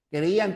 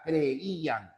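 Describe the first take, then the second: First: Said in the usual way. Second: "Creían" drawn out vowel by vowel, cre-í-an; separated vowels. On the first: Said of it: "tiene dos hiatos, recuerden". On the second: Shown as a demonstration. Teacher reminding students of two hiatuses, "Creían" split cre-í-an. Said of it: "Creían tiene dos hiatos".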